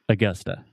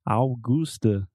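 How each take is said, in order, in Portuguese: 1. As vogais átonas são reduzidas para schwa. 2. As vogais átonas são plenas, como em português. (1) "It's Augusta. ... So you have two schwa" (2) "they want to say Augusta, like Augusto"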